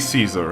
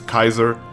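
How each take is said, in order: First: The name begins with an S sound. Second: The name begins with a K sound. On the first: The speaker calls it wrong. "Don't say Caesar" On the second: The speaker calls it right. "Latin pronunciation pronunciation is Kaiser"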